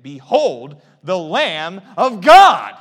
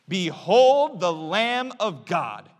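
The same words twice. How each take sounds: First: It is said louder, with exclamation. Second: It is said at a normal, softer volume.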